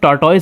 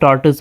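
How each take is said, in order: First: The word ends with a 'toys' sound. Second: The word ends with a short 'tus' sound. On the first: The speaker calls it wrong. "इसे टॉर्टोइज नहीं" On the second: The speaker calls it right. "बल्कि टॉर्टस पढ़ते हैं"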